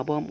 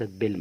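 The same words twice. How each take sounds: First: "بالم" as "paam", long a and no L; silent L. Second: "بلم" as "belm", L pronounced; wrongly sounded L. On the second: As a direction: say "بلم" with a short vowel and a clear L before m. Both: Shown as a demonstration. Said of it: "اسمها بالم وليست بلم".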